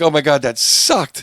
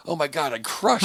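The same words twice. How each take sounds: First: Loud, high, drawn-out mock dismay; slow, hammed-up disgust at your own set; mock despairing comic. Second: High-pitched mock boasting; mock elated comic. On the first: Comic beating himself up after a set, mock despair. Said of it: "Or if you're like". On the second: Comic gushing to himself after a set, mock elation. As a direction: imitate a comic thrilled with the set. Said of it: "Then you're like".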